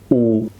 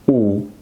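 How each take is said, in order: The two takes are said the same way.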